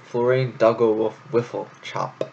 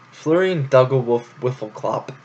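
First: Florian Duggle Wolf Wifflechop with ending chop; name reread. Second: Florian Duggle Wolf Wiffleclop with ending clop; name read out. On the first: Rereading the name, ending chop. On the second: Reading the long name aloud, ending clop. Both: Shown as a demonstration. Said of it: "also a fucking great name".

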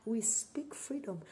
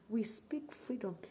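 No difference in how they are said.

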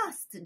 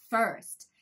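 First: "first" mispronounced as "fast", open ah vowel; wrong vowel in "first". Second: "first" with an er vowel, not ah; correct "first". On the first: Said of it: "気をつけてほしいのが". (「first」を「fast」と誤って発音) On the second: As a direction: say "first" with a puckered er sound. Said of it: "fastじゃなくてfirst". (「first」をerの音で正しく発音) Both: Shown as a demonstration.

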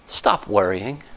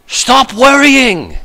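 First: Much lower and far softer, almost hushed; a hushed pastoral echo; soft repeat. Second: Slow, drawn-out stop worrying; a slow, commanding plea; firm command. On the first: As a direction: murmur it gently the second time. Repeated softly to the congregation. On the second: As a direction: say it slowly like a pastor's command. Preacher commands the congregation. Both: Acted.

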